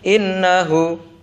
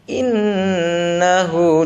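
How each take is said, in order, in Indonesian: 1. Bunyi sengau n dibaca pendek. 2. Bunyi sengau n ditahan panjang. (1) "jangan innahu" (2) "ditahan dulu satu setengah"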